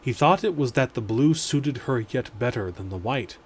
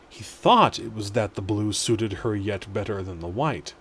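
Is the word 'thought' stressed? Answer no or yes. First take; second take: no; yes. First: The word thought carries no special stress. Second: The word thought carries strong stress.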